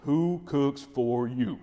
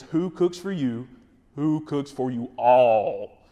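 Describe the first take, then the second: First: Owl hoot. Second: Slow hooting owl call, pushed louder at the end. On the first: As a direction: hoot it like a barred owl, drawn out. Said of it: "what you wanna do is basically say". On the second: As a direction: hoot it out to carry farther through the woods. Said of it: "if you need to get a little bit louder". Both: Shown as a demonstration.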